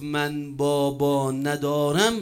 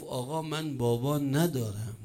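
First: Put-on very slow, stretched-out retelling of a child's words; drawn-out orphan's reply. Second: Said in the usual way. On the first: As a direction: draw out each word for weight. Orphan's answer repeated for effect. (پاسخ کشیده و شمردهٔ کودک یتیم)

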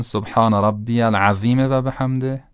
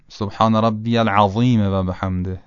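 First: "العظیم" with a thin, light dhāl; wrong, with dhāl. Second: "العظیم" with thick, emphatic ظ; correct, heavy ẓāʾ. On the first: Teacher shows the faulty rukuʿ phrase, "العظیم" with light dhāl. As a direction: recite it with "العظیم" sounding like العذیم. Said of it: "بله، دومی درسته". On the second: Teacher shows the correct rukuʿ phrase, "العظیم" with heavy ẓāʾ. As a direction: darken the ظ in "العظیم". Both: Shown as a demonstration.

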